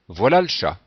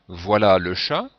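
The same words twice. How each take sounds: First: It is said fast, with the e dropped. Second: It is said slowly, with the e sounded.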